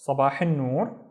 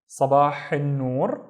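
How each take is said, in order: First: Said in the usual way. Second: Sabah al noor slowly, each word drawn out; slow model phrase. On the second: Shown as a demonstration. Teacher giving the morning reply, Sabah al noor slowly. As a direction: stretch Sabah al noor for learners.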